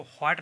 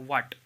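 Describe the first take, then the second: First: व्हाट opening with breath, "hwaat"; sounded H. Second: व्हाट opening on a simple W, "waat"; silent H. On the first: Teacher showing what not to say, व्हाट with H. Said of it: "इसको व्हाट नहीं पढ़ा जाता". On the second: Teacher giving the reading, व्हाट with silent H. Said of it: "इसको व्हाट पढ़ा जाता है". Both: Shown as a demonstration.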